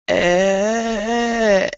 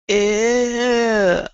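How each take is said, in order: First: It starts low and tense in the throat. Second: It starts low and tense in the throat.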